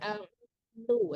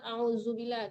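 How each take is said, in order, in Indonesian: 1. Konsonannya adalah bunyi dh yang lembut. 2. Konsonannya adalah bunyi z yang keras dan berdengung. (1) "dilembutkan zalnya" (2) "jangan auzubillah"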